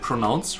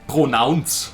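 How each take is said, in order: First: It is said with an American accent. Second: It is said with a German accent. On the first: "the American way to pronounce stuff" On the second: "That's how you would uh, pronounce it with a German accent"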